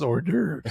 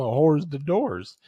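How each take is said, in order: First: Said in the usual way. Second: "whores the doors" sounded out slowly as English words; hors d'oeuvres mispronounced. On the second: Retold or imitated. Bro quizzing him on words, slow literal mispronunciation. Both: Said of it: "That's hors d'oeuvres".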